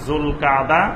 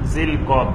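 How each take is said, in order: First: It begins with 'zul' and ends in 'kada'. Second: It begins with 'zil' and ends in 'kad'. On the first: The speaker calls it right. "এটার সঠিক উচ্চারণ হবে জুলকাদা" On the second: The speaker calls it wrong. "আমাদের দেশে বাংলা লেখা হয় জিলকদ"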